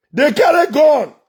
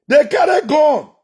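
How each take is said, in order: Both takes have the same delivery.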